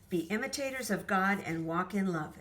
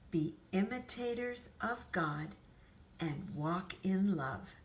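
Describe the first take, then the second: First: It is spoken very quickly. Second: It is spoken at an ordinary speed. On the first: "that was so fast I almost couldn't keep up" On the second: "regular speed, regular sound in our voice"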